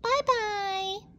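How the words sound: It is said in a high, squeaky voice.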